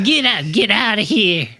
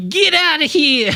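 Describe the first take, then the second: First: Put-on old-timer shooing voice; cowboy sidekick; old prospector voice. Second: Put-on high, slow crusty old-timer; cowboy sidekick; old prospector voice. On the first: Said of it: "Pretty good". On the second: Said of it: "Say it in the old prospector voice".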